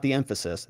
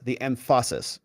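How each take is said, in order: First: "emphasis" with the stress on the first half, EM-phasis; wrong stress on emphasis. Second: "emphasis" with the weight pushed onto the latter half, em-PHA-SIS; stress on the end of emphasis. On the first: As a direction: say "emphasis" the usual way, weight up front on EM. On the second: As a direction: lean on the second half of "emphasis". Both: Shown as a demonstration. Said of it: "Because I'm emphasizing the latter half of the word".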